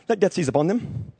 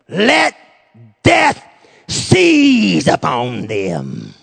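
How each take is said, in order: First: It is said flatly, like reading a script. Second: It is said with intense, heartfelt emotion. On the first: The words are just recited without feeling. The speaker calls it wrong. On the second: The words come from a deep personal wound. The speaker calls it right.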